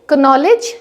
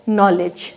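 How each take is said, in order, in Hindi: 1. इस शब्द में k बोला जाता है। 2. इस शब्द में k साइलेंट है। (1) "ये कनॉलेज नहीं होगा" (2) "ये होगा नॉलेज"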